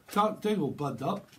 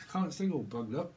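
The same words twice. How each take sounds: First: Mock blocked-nose voice; stuffed-up head-cold voice, put on; bunged-up nose. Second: Said in the usual way.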